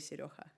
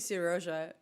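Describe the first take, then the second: First: The name is pronounced in a Spanish way. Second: The name is pronounced in a Ukrainian way. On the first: "if you decide to pronounce him on a Spanish style" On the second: "because he's Ukrainian, so this is the way to pronounce his name"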